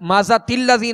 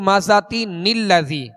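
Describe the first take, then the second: First: The words run together with no n sound. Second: An n sound links the two words together. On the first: The speaker calls it wrong. "नहीं पढ़ेंगे" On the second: The speaker calls it right. "जैसे"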